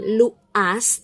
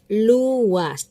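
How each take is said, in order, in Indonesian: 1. Vokal u dan a menyambung tanpa peluncur. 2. Peluncur w menghubungkan u dan a. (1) "bukan uh, kita mengatakan luas" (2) "tapi luas. Jadi dijabarkannya luwa"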